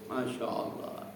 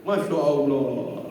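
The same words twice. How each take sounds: First: Slow whispered masya allah. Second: Slow, drawn-out masya allah said aloud; drawn-out exclamation. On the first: Preacher whispers about pilgrims finishing the Quran. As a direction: hush it out slowly in wonder. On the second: Preacher exclaims about the pilgrim's treat. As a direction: stretch it out with open admiration. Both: Acted.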